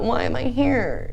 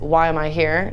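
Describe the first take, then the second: First: It is asked in a whiny, self-pitying tone. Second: It is asked in a calm, matter-of-fact tone. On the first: The speaker feels like a victim of circumstances. The speaker calls it wrong. "The different tone of voice is just different" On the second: It is a genuine, practical question. The speaker calls it right. "That's a practical, logical statement"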